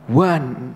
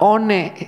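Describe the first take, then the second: First: It is read with the sounds 'wan'. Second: It is read the way it is spelled. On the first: The speaker calls it right. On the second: The speaker calls it wrong.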